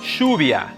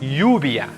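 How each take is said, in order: First: The ll sounds like English sh. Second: The ll sounds like English y. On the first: "The third variation is the sh sound" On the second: "The double L most often sounds like Y"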